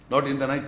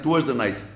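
First: NOT pressed as the word to reject; stress on NOT. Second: Towards hit first, then falling; stress on TOWARDS. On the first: Teacher stressing Not while correcting the verse. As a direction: lean on Not, then let in the night drop. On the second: Teacher correcting students, stressing towards. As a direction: land hard on towards. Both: Shown as a demonstration.

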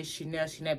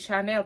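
First: "Chanel, Chanel" said shin-ELL, as the masses say it; wrong pronunciation. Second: "Chanel" said shah-NELL, a bit louder; correct pronunciation. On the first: Mocking how everyone says it, a shin-ELL. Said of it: "that's what the massive say". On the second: Correcting her followers, an emphatic shah-NELL. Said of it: "But it's Chanel". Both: Shown as a demonstration.

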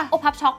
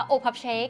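First: โอพับช็อก with the ending ช็อก, said higher; Thai spelling. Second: โอพับเชค read as the English label, ending เชค; โอพับเชค as printed in English, said plainly. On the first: Reading the odd Thai label aloud, โอพับช็อก with ช็อก. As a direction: read the Thai label as written, โอพับช็อก, amused. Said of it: "เขาเขียนว่า". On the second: Reading the English name on the cup, โอพับเชค. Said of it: "คือตรงนี้อ่านว่า". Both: Shown as a demonstration.

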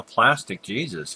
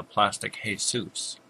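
First: Said in the usual way. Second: "Jesus" said the Spanish way, hay-SOOS; Spanish pronunciation. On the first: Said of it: "Pronounced that incorrectly". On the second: Shown as a demonstration. Gamer jokingly correcting own wording, "Jesus" pronounced Spanish-style as hay-SOOS. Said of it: "Pronounced that incorrectly, it's Spanish".

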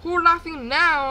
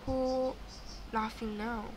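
First: Slow, loud, higher gloating question; loud taunt. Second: Quiet taunt. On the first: Player to killer, loud gloating taunt. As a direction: call it out, stretching the words. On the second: Player to killer, quiet taunt. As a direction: say it softly, with a gap after "Who". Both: Pretend.

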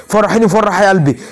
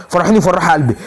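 The two takes are said the same way.

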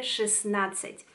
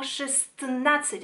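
First: Шестнадцать simply as shesnadtsat; easy шестнадцать, no t before н; silent T. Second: Шестнадцать with the first т sounded before н; tongue-twisting шестнадцать, all consonants in; every consonant pronounced. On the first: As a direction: drop the first т in шестнадцать. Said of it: "decimos simplemente". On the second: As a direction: force the t into шестнадцать, shest-nadtsat. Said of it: "sería muy difícil pronunciar". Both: Shown as a demonstration.

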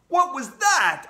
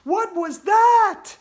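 First: Put-on loud, raised boy's shout. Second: Very high, loud, drawn-out shriek; Andrea shouting. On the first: AJ seeing a vampire on air, shouting. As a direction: shout the question in alarm. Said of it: "I shouted". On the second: Andrea seeing a zombie on air, high shout. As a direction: shout it slowly at top pitch. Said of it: "Andrea shouted". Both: A narrator's reading.

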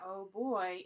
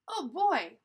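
First: Said in the usual way. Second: Put-on loud, lifted, eager oh boy; excited. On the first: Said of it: "It's not 'oh boy'". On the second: Shown as a demonstration. Reader shows how Annie really says it, excited. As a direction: say it like she's excited. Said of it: "like she's excited".

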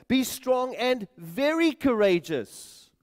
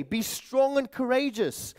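First: "very" stressed, slow and higher; slow down and lean on "very"; re-emphasized. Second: Said in the usual way. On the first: Retold or imitated. Preacher quotes the Lord to Joshua, re-emphasizing "very". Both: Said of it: "And then it's re-emphasized".

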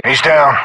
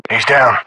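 The two takes are said the same way.

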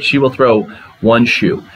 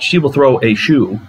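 First: Measured, pointed read of "one shoe"; stress on one shoe. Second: Said in the usual way. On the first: Shown as a demonstration. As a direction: weigh the word "one" against "a". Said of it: "It's very specific". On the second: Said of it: "It's not".

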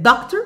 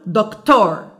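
First: Doctor as DOC-ter, first syllable strong; stress on first syllable. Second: دكتور as doc-TOR, long second syllable; stress on second syllable. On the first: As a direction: stress the start of doctor, light ending. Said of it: "هل انا مثلًا المفروض اقول". (doctor بالضغط على المقطع الأول) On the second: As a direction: put the weight on the end of دكتور. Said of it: "ولا اقول". (دكتور بالضغط على المقطع الثاني) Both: Shown as a demonstration.

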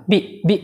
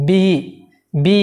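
First: বি cut short, vowel not held; quick, short বি with no lengthening; clipped wrong take. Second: বি with the ee held long; drawn-out vowel. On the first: Teacher shows learners how not to say it, too short. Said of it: "এরকম বলতে পারবো না". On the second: Teacher models the lengthened letter for learners, drawn out. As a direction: stretch the vowel of বি. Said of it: "একটু টেনে বলবো". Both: Shown as a demonstration.

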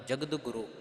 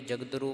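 First: ਜਗਤ ਗੁਰੂ as "jagad guru", the g of guru sounded; two-word reading. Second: ਜਗਦਰੂ merged as "jag-daru", missing the second g; mistaken run-together reading. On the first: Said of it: "ਆਪ ਜੀਆਂ ਨੇ ਇਹ ਪਾਠ ਉਚਾਰਨ ਕਰਨਾ ਹੈ". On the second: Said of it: "ਪਰ ਇੱਦਾਂ ਨਹੀਂ ਉਚਾਰਨ ਕਰਨਾ". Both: Shown as a demonstration.

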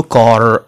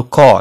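First: كار with a hard, sounded final R. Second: كار with the R dropped, "kaa"; soft R. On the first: Teacher showing learners what to avoid, hard R. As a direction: stress the R at the end of كار, the way not to say it. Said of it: "ما غاديش نقولوا كار". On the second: Teacher giving the British version, soft R. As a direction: let كار end on a long open vowel, no R. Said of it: "كتكون soft". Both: Shown as a demonstration.

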